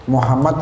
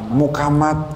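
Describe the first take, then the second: First: The middle consonant is an h sound. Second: The middle consonant is a k sound.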